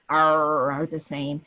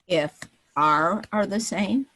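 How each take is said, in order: First: It is said in a pirate voice. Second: It is said in a normal voice.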